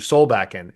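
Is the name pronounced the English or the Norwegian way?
English. The name has an English pronunciation. "it's been anglicized to Solbakken"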